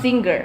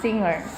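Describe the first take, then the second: First: The ng is followed by a hard g. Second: The ng is said without a hard g. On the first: The speaker calls it wrong. "not singer" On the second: The speaker calls it right. "You guys have to pronounce singer as singer"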